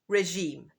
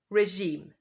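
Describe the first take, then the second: Both takes have the same delivery.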